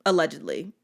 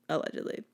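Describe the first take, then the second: First: Said in the usual way. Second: Softer, near-whispered disclaimer; hushed aside. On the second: Real, not acted. Covering self after admitting speeding, hushed aside. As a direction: slip it in under your breath.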